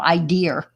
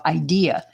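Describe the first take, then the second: First: It is said in a New York accent. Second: It is said in a standard accent. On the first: "I guess I still have my New York accent" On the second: "instead of"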